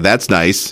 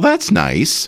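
First: It is said with a sarcastic, passive-aggressive tone. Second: It is said warmly and sincerely. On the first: The speaker does not really like it. "But if you think" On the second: The speaker truly likes it. "You could actually mean it"

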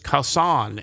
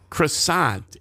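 First: It is said with a French pronunciation. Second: It is said with an English pronunciation. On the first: "in French is croissant" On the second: "In English, that's how we pronounce it"

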